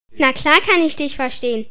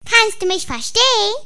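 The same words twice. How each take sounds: First: Said in the usual way. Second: High squeaky little toy voice. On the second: Acted. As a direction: squeak it out like a tiny rubber figure. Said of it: "mit piepsender Stimme".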